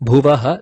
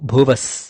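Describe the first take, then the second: First: The word ends with an echoed ha sound. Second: The word ends with an s sound. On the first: "transform the bhuvaha" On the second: "to bhuvas"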